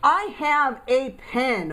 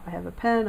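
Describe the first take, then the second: First: The word 'a' is full and stressed. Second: The word 'a' is quick and reduced. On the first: The speaker feels some emotion. "I would want to stress that A" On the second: It is ordinary fluent speech. "when we're speaking quickly and fluently, we say"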